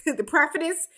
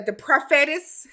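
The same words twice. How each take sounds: First: "prophetess" with stress on PROPH; corrected prophetess. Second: "prophetess" with stress on FET; mispronounced prophetess. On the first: Recapper fixing her word for [name], corrected. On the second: Recapper fumbling a title for [name], mispronounced. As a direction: say "prophetess" as pro-FET-ess. Stumbles on word, then re-says it. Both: Real, not acted.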